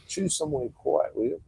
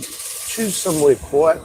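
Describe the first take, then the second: First: Hushed whisper of Choose somewhere quiet; whispered request. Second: Drawn-out, stretched words, louder and higher; slow pleading emphasis. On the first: Repeating the request to his date in a whisper. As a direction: breathe the words, almost secret. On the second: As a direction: plead slowly, leaning on somewhere. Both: Retold or imitated. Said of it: "I said".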